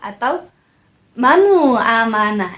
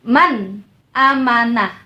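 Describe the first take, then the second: First: An extra u vowel follows the n. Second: The n ends firmly with no extra vowel. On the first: The speaker calls it wrong. "itu juga salah" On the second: The speaker calls it right. "tegas dan jelas"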